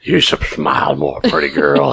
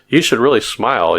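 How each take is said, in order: First: It is said in a creepy put-on voice. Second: It is said in a plain, normal voice.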